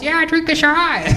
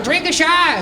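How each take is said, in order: First: A slower, higher, different crowd voice egging him on; another disguised voice. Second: A pitched-up stranger's voice urging him to drink; disguised voice. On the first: Comic playing a second fake audience member egging his friend on, in a slower, higher voice. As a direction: sound like a second stranger, drawn out and higher. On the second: Comic telling how he urged his friend to drink, in a disguised higher voice. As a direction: pretend to be someone else in the crowd, higher. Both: Pretend. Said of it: "changing my voice".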